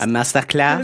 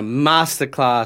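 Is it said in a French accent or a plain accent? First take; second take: French; plain. First: It is said in a put-on French accent. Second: It is said in the speaker's ordinary accent.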